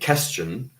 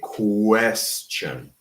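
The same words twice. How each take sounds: First: It begins with a plain k sound. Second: It begins with a kw sound. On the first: The speaker calls it wrong. "We don't say question" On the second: The speaker calls it right. "we say question"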